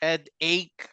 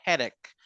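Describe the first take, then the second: First: The two parts are said separately. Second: The two parts run together quickly. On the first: The speaker calls it wrong. "este no suena como headache" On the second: The speaker calls it right. "Sino suena como headache"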